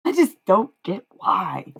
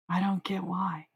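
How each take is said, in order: First: Louder, higher, slow "I just don't get why"; loud exasperation. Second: Softer echo, "don't" leaned on and falling; quiet repeat. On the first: Streamer venting at critics who hate her, loud and slow. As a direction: lean hard on "just", drawn out and frustrated. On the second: Streamer repeating to herself about critics, softer. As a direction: let it sink back, almost to herself. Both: Real, not acted.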